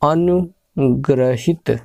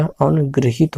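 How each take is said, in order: First: अनुग्रहित said slowly as the wrong form; teacher reads the wrong form अनुग्रहित; wrong spelling read slowly. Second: अनुगृहित with ri sound, गृ as in गृह; teacher gives the correct अनुगृहित; correct form. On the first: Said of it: "अनुग्रहित नहीं होता". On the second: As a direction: say अनुगृहित clearly with the ri. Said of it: "अनुगृहित होता है". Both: Shown as a demonstration.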